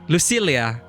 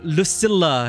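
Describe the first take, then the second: First: The double L is said the Spanish way. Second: The double L is said the English way. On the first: "in my language, double L, usually we pronounce it as Lucilia. You know, Spanish" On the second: "they say Lucilla here"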